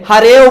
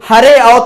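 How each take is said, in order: First: The words are merged, the second word's first vowel dropped. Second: Both words are said separately, the second vowel kept. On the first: The speaker calls it right. "हरेव बोलेंगे" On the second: The speaker calls it wrong. "हरे आओ तो बोलेंगे नहीं"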